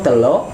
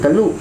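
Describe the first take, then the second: First: The second vowel sounds like o. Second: The second vowel sounds like u. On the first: This is the coastal Malay form. "Ketika di pesisir pakai O" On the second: This is the inland Malay form. "di pedalaman pakai U"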